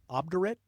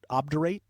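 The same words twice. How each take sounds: First: "obdurate" as OB-der-it, rising; obdurate ending in -it. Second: "Obdurate" as OB-der-ATE, rising to rhyme with rate; obdurate ending in -ate. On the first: Host unsure of the word of the day, trying "obdurate" as OB-der-it. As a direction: say "obdurate" with a short -it ending, questioning. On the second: Host unsure of the word of the day, trying "Obdurate" as OB-der-ATE. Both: Shown as a demonstration. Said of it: "Is it obdurate or obdurate?".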